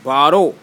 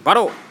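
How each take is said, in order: First: It is said slowly. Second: It is said fast.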